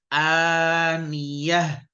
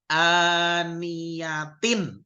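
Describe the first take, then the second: First: The word ends in a soft 'h' sound. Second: The word ends with a full 'tin' syllable. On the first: The reading stops at this word. "tapi kalau dia berhenti, berubah menjadi hak, hak mati" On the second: The reading continues without stopping. "Yang apabila dia itu terus, maka dibaca tak"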